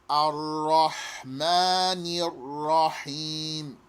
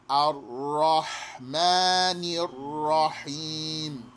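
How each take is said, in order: No difference in how they are said.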